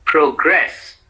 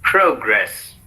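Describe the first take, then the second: First: "progress" with the stress on GRESS; pro-GRESS, higher on the second syllable. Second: "progress" with the stress on PRO; PRO-gress, falling after the first syllable. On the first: Teacher models the verb for repetition, progress stressed on GRESS. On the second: Teacher models the noun for repetition, progress stressed on PRO. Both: Shown as a demonstration. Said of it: "said in two different ways".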